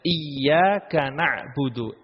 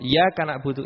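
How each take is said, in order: First: The y sound is held long and doubled. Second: The y sound is short and single. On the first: The speaker calls it right. "di sini ada tasydidnya" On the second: The speaker calls it wrong. "tidak memakai tasydid... tidak sah"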